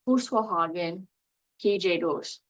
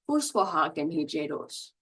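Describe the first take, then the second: First: There is a pause between the two parts. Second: It flows smoothly without a pause between parts.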